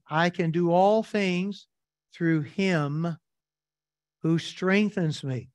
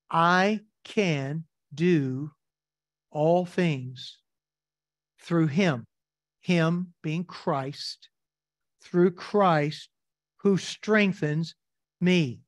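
First: Said in the usual way. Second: Very slow, each phrase set apart by long pauses; slow scripture reading. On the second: Shown as a demonstration. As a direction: read it word by word, letting every phrase land. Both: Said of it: "Notice what he says in verse".

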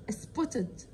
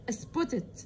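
No difference in how they are said.

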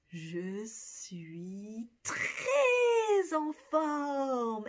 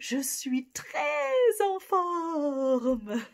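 First: Très drawn out very slowly; slow model. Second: Louder and bright with stress on très; energized. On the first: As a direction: je suis TRÈS en forme, each word slow. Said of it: "What do you think we would say". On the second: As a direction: bounce je suis très en forme out louder. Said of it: "you're even better". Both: Shown as a demonstration.

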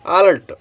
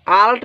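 First: अलर्ट falling, with an "r" before "t"; correct reading of अलर्ट. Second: आल्ट with a long first "aa"; misreading of आल्ट. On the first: Teacher gives the right reading, अलर्ट with "r". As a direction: say अलर्ट as "a-lart". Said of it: "इसको पहले पढ़ेंगे". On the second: Teacher shows what not to read, आल्ट with long "aa". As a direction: say आल्ट as "aa-lat". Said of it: "आल्ट नहीं पढ़ेंगे". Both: Shown as a demonstration.

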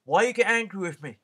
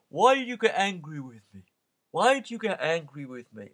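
First: Higher, louder mock-wounded protest; Paul turns the sellers' guilt trick on a waiter; Paul mimicking the sellers. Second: Higher, louder wounded protest; seller's mock hurt. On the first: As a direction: throw their own line back at them. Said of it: "And he'd say". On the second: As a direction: make the tourist feel guilty. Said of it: "and then".

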